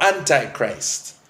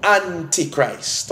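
First: "Antichrist" with eye in the middle; Antichrist as "AN-tie-christ". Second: "Antichrist" with ee in the middle; Antichrist as "AN-tee-christ". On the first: Preacher giving the term's other form, "Antichrist" said AN-tie-christ. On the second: Preacher defining the term, "Antichrist" said AN-tee-christ. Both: Shown as a demonstration. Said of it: "depending on how you want to pronounce it".

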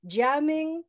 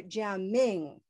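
First: Jiaming with a long, big first syllable; stress on first syllable. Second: Jiaming with a long, big second syllable; stress on last syllable. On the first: Teacher offering a name choice, Jiaming stressed on the first syllable. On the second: Teacher offering the other choice, Jiaming stressed on the last syllable. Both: Shown as a demonstration. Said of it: "one syllable that's the big, colorful syllable".

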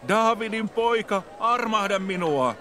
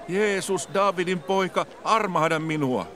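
First: Much higher and slower, desperate plea; crying out louder. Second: High, pleading call to a passer-by; a blind beggar crying out for mercy. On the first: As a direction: call out even harder than before, drawn out. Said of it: "huusi entistä kovemmin". (vielä korkeampi, hidas ja epätoivoinen huuto) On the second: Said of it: "hän alkoi huutaa". (korkea, anova huuto) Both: A narrator's reading.

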